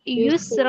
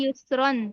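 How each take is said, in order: First: The word ends with a long 'ra' sound. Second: The word ends with a final 'ran' sound. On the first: The reader stops on this word. "अगर हम रुकेंगे वक़्फ़ करेंगे" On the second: The reading continues without a stop. "रा अलिफ दो ज़बर रन"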